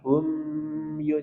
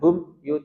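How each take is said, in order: First: The m sound flows smoothly into the next word. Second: The m sound is cut off before the next word. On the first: The speaker calls it right. "tapi hum yu" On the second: The speaker calls it wrong. "Jangan hum yu"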